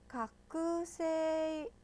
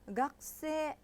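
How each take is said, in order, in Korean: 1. k 소리 뒤의 모음은 분명하게 발음돼요. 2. k 소리 뒤의 모음은 거의 안 들려요. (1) "학생 아니죠. 이렇게 안 했죠" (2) "거의 안 들리죠"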